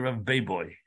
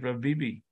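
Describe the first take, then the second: First: The name is said with 'bay-boy' vowels. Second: The name is said with 'bee-bee' vowels. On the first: The speaker calls it right. "in the art scroll, it's Bay Boy" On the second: The speaker calls it wrong. "I've been pronouncing it Rav Bibi"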